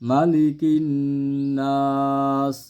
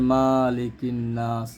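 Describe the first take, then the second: First: The vowel after the first m is kept short. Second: The vowel after the first m is drawn out. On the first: The speaker calls it right. "এখানে টান নেই।" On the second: The speaker calls it wrong. "অনেকে এখানে টান দেয়া পড়েন"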